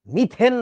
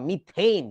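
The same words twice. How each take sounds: First: মিথেন slowly, with a plain e; wrong Bangla pronunciation. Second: মিথেইন with "ey" in the last syllable; correct English pronunciation. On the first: Teacher correcting the class, মিথেন as a slow "mi-then". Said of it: "মিথেন না রে বাবা". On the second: Teacher correcting the class, মিথেইন as "mi-theyn". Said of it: "উচ্চারণটা হচ্ছে মিথেইন". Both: Shown as a demonstration.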